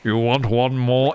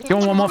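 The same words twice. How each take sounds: First: It is said slowly in a put-on character voice. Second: It is said quickly in the speaker's normal voice.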